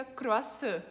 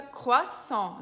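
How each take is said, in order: First: Croissant with tapped R and Brazilian-style ending; mistaken Brazilian pronunciation. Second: Croissant with throaty R, nasal "on", silent T; correct French pronunciation. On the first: Teacher shows what to avoid, Brazilian pronunciation of croissant. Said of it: "não fica croissant". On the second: Teacher sums up the sounds, French pronunciation of croissant. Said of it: "Então fica croissant". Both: Shown as a demonstration.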